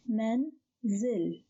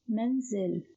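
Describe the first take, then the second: First: "manzil" split in two, a clear pause between syllables. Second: Said in the usual way. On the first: Shown as a demonstration. Teacher breaking a word down for learners, "manzil" in separated syllables. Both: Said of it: "the word is pronounced as".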